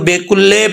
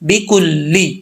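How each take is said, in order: First: The vowels are said like E sounds. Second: The vowels are said like clear I sounds. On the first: The speaker calls it wrong. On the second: The speaker calls it right.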